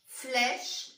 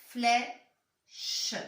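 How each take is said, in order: First: Said in the usual way. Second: "Flèche" split into "flè", a pause, then "che"; syllable-by-syllable reading. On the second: Shown as a demonstration. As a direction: sound out "Flèche" slowly in two parts. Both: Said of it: "Deux syllabes".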